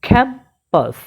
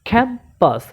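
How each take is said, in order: Both takes have the same delivery.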